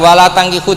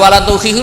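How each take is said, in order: First: The verb's first vowel is an 'a' sound. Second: The verb's first vowel is a 'u' sound. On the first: Do not yourselves marry polytheist men. The speaker calls it wrong. "diwaca fathah" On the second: Do not marry off your daughters to polytheist men. The speaker calls it right. "Karena dibaca dhammah"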